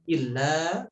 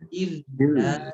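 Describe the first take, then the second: First: The doubled l is cut short, rushed. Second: The doubled l is held about one beat. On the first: The speaker calls it wrong. "tidak illa" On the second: The speaker calls it right. "tapi illa"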